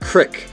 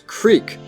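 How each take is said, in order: First: The vowel is short, as in sit. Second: The vowel is long, as in seek. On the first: A small Midwestern minority says it this way. "so it sounded like sit" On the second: Most people say it this way. "the E in creek is pronounced like seek"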